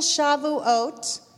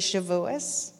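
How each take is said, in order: First: The word ends with a t sound. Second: The word ends with an s sound.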